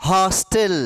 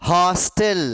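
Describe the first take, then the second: The two takes are said the same way.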